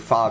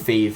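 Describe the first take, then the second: First: The vowel is short, as in 'cat'. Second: The vowel is long, as in 'cave'. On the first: "Some people pronounce it different ways" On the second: "I personally call it Fave"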